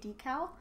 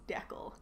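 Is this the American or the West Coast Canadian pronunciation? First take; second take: American; West Canadian. First: It is said the American way. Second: It is said the West Coast Canadian way.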